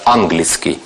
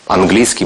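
First: The stress falls in the old-fashioned place. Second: The stress falls in the modern place. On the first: This is how it was said in the 19th century. "В 19 веке говорили именно так" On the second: This is the later way of saying it. "более позднее ударение"

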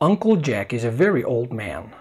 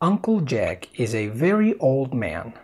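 First: It is read at a near natural speed. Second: It is read a bit more slowly. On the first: "اول مرة هتكون بسرعة اقرب الى الطبيعية" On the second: "Listen one more time, a bit slower"

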